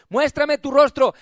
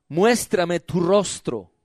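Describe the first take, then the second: First: Raised, full-voiced preaching command; insistent demand. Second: Solemn verse reading. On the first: God telling church to come out, insistent demand. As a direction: demand it of the listener. God's demand, after reading verse. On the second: Real, not acted. Preacher reading verse fourteen to congregation, solemn verse reading. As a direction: read it out slowly, letting it settle.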